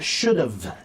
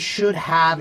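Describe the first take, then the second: First: The words are joined into one contracted form. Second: Both words are said fully and separately.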